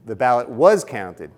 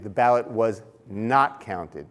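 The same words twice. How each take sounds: First: "was" punched louder; stress on WAS. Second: "not" set apart and drawn out; slow down and lean on "not"; stress on NOT. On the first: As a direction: land hard on "was". Contrasts counted with not counted. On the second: Contrasts not counted with counted. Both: Shown as a demonstration.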